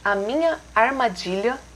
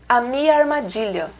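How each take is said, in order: First: Every syllable of minha is fully pronounced. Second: The nha syllable of minha is dropped.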